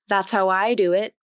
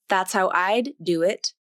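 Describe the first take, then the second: First: The D in "I'd" is dropped entirely. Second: The D in "I'd" is fully released. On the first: "the D sound will be omitted completely" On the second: "First, the D sound will be released"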